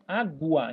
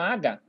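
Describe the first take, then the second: First: The u sound is clearly pronounced. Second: The u sound is left out. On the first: The speaker calls it right. "Eu falo U" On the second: The speaker calls it wrong. "eu não falo aga"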